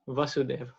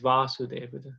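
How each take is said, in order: First: The first vowel is short. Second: The first vowel is long. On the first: It names the father. "Krishna's father, his name is Vasudev" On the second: It names the son. "there's a long A"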